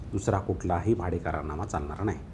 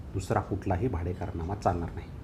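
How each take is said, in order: Both takes have the same delivery.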